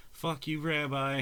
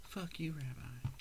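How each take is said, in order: First: Slow, louder teasing jab at Rabbi; slow, louder, joking curse at a friend; mock insult. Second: Slow, softer teasing whisper; slow, softer, fond whispered sign-off; whispered mock insult. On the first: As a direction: drag it out, a playful taunt. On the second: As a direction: breathe the jab out fondly.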